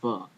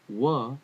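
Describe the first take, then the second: First: The word begins with a v sound. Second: The word begins with a w sound. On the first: This is the modern pronunciation. "in modern Hebrew would be va" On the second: This is the ancient pronunciation. "wa is how I believe it should be pronounced"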